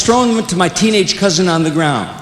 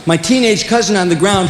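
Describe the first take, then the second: First: Said in the usual way. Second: Put-on "teenage" leaned on with a pointed tone; mild stress on "teenage". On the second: Shown as a demonstration. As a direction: hit "teenage" to needle the cousin.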